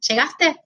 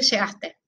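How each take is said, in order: First: It is said with question intonation. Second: It is said with statement intonation.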